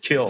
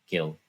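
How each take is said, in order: First: The name begins with a hard K sound. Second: The name begins with a soft G sound. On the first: This is how it was said without knowing the proper pronunciation. The speaker calls it wrong. "when I didn't really know how to pronounce it" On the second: This is how people who know the name say it. The speaker calls it right. "they always pronounce it by like Gil Gil"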